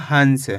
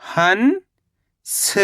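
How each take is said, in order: First: Said in the usual way. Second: हंस as long rising "han", pause, "sa"; split syllables. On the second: Shown as a demonstration. Teacher breaking down हंस for learners, split syllables. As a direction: stretch हंस into two separate syllables. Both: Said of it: "तो मिलके बन जाएगा".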